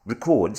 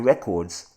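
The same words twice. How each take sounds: First: "records" as rih-CORDS, stress on second syllable; verb pronunciation. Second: "records" as REH-cords, stress on first syllable; noun pronunciation. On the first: Host correcting the article reading, "records" as rih-CORDS. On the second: Host misreading the article, "records" as REH-cords. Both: Real, not acted.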